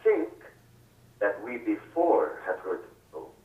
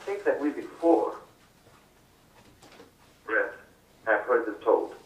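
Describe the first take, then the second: First: The pause comes after the word 'think'. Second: The pause comes after the word 'before'. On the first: The speaker calls it right. "I think that makes it clearer" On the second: The speaker calls it wrong. "That's the way you did it"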